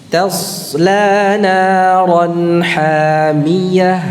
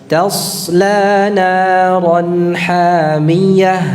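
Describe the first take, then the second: No difference in how they are said.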